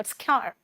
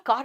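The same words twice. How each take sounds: First: American-style twanged "kyar"; exaggerated American vowel and r; mock American accent. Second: कार with a long open aa; plain "kaar" for कार; Indian-English pronunciation. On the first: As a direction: imitate an American saying car. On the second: Shown as a demonstration. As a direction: say कार as kaar, no American twang. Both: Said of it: "उन लोग कार नहीं बोलते".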